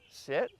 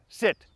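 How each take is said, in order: First: It is said softly and tentatively. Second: It is said firmly and emphatically.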